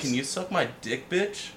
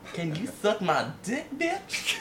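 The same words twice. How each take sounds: First: It is said in his ordinary voice. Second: It is said in a put-on preacher voice.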